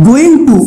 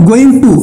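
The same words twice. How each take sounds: The two takes are said the same way.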